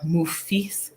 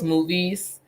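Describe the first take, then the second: First: The word is pronounced with an added f sound. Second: The word is pronounced in the usual way.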